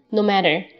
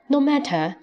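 First: The t in matter sounds like a soft d. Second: The t in matter is a crisp t. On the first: "美音喜欢把tt 浊化成d" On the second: "我们英式读no matter"

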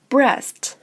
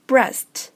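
No difference in how they are said.

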